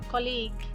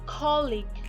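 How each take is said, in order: First: The stress is on the second syllable. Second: The stress is on the first syllable. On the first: The speaker calls it wrong. "which is incorrect" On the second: The speaker calls it right. "We must stress the first syllable"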